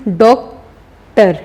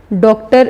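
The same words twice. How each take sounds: First: doctor slowly, long pause between डॉक and टर; syllable break. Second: Said in the usual way. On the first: Shown as a demonstration. Teacher showing two syllables, doctor pulled apart in the middle. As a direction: split doctor into two separate beats, डॉक, टर. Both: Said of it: "तो ये भी टू syllables है".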